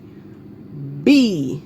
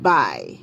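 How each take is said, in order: First: The vowel sounds like 'ee' in 'bee'. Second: The vowel sounds like 'y' in 'buy'. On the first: The speaker calls it right. "this is actually be" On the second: The speaker calls it wrong. "not by"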